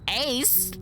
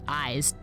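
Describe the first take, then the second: First: The name rhymes with 'ace'. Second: The name rhymes with 'eyes'. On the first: "she was like, Ace?" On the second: "I pronounced it as Eyes"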